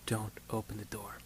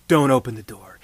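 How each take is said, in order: First: Hushed warning. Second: "Don't" set firm and louder; firm order. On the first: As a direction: drop it to a soft hush, "don't open the door". Doctor's final soft warning. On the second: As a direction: give the order firmly, "Don't open the door.". Doctor's firm instruction. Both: Retold or imitated.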